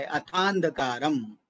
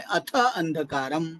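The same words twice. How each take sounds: First: "अथांधकारम" slowly as one word, long joined aa; long-vowel sandhi. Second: "अथ अंधकारम" slowly, as two separate words; unjoined words. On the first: Teacher showing the sandhi to students, slow joined "अथांधकारम". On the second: Teacher splitting a sandhi for students, slow separated "अथ अंधकारम". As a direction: keep "अथ" apart from "अंधकारम". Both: Shown as a demonstration. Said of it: "यहाँ पर दीर्घ संधि है".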